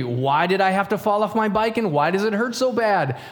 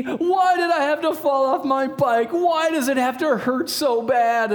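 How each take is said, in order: First: Said in the usual way. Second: Put-on high, slow whine of a hurt kid; mock crying child. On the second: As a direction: wail it like an imitated little boy. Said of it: "and he's crying".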